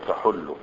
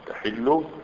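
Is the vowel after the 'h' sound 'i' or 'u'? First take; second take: u; i. First: The vowel after the 'h' is 'u'. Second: The vowel after the 'h' is 'i'. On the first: "وقيل بضمها" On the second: "بكسر الحاء"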